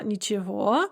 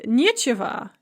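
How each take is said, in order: First: Ничего with unstressed ни, stressed final syllable; stress on last syllable. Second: Нечего with stressed не, said nie; stress on first syllable. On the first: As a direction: land on the end of ничего. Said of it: "nie instead of ni". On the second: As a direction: hit the не in нечего. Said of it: "the stress is on the nie". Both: Shown as a demonstration.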